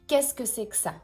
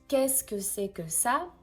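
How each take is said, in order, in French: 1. Beaucoup de sons sont avalés et se mélangent. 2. Chaque syllabe est prononcée pleinement et clairement. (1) "on prononce ... On avale beaucoup de choses ici" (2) "This is the way we write it"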